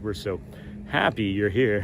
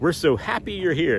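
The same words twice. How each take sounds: First: It sounds sarcastic, with an eye-roll tone. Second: It sounds warm and genuinely welcoming. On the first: The guests are not really welcome. "it's like sarcasm, ... There's like an eye roll to it" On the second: The guests are truly welcome. "instead of being like"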